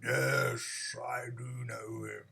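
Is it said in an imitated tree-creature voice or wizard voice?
tree creature. It is said in a very slow tree-creature voice. The speaker calls it right. "I should have done my own tree. ... I had to take half an hour to say that"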